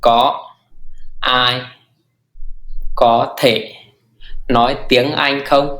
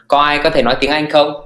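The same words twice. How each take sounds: First: Slow nói tiếng Anh không; teacher modelling slowly; slow model phrase. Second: Said in the usual way. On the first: Shown as a demonstration. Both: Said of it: "Thì lùi nhất là thì".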